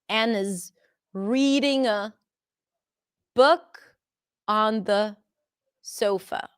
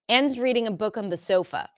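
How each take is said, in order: First: The word 'is' is said in full. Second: The word 'is' is contracted onto Anne. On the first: "instead of Anne is reading a book on the sofa" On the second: "we reduce it. Anne's"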